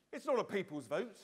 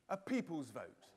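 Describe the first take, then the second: First: Not pushed up with a rising tune; stress on not. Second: Said in the usual way. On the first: Shown as a demonstration. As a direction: lean hard on not, rising. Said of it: "it's a loser's vote".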